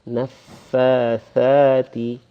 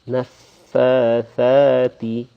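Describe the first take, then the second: First: The second word starts with a th sound. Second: The same.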